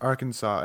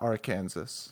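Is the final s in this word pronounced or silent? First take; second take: silent; pronounced. First: The word ends with a silent s. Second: The word ends with a sounded s. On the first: The speaker calls it right. "the letter S at the end of French words is usually silent" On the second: The speaker calls it wrong. "and not Arkansas"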